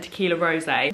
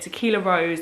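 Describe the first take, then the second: First: The last word ends with an 'ay' sound. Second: The last word sounds like the flower 'rose'. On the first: The speaker calls it wrong. "it's what me and my friends have always called it" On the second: The speaker calls it right. "The correct pronunciation is Tequila Rose"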